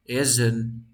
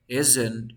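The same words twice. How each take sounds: The two takes are said the same way.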